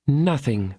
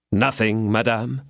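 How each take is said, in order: First: Nothing said higher with a settled falling tune; firm answer. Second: Rising, incredulous tune on Nothing madame; doubting question. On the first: The lady assuring D'Artagnan, firm and final. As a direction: close the matter with certainty. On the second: D'Artagnan questioning the lady's claim, doubting rise. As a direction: ask it back in disbelief. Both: Acted.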